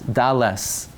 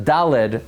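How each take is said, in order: First: The word ends with an 's' sound. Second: The word ends with a 'd' sound. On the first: The speaker calls it right. "There's no letter daled. It's deles" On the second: The speaker calls it wrong. "we mispronounce the daled"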